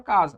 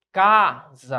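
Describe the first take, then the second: First: Said in the usual way. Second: "Casa" split, long strong "ca", short "sa"; stress on penultimate syllable. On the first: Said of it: "O que é que você consegue perceber?". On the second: Shown as a demonstration. Teacher asking what you perceive, "Casa" split with stress on "ca". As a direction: stretch and punch "ca" in "Casa", then drop "sa". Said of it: "a sílaba tônica é a".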